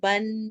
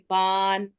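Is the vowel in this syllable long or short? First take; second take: short; long. First: The vowel is kept short before the n. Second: The vowel is stretched long before the n. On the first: The speaker calls it right. "लेकिन हम पढ़ेंगे बन" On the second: The speaker calls it wrong. "ऐसे खींच के नहीं पढ़ेंगे, बान ऐसे नहीं पढ़ेंगे"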